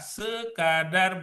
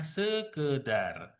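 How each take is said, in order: First: The second syllable has the vowel 'a'. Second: The second syllable has the vowel 'e'. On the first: The speaker calls it right. "yang benar adalah sekadar" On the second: The speaker calls it wrong. "bukan sekedar"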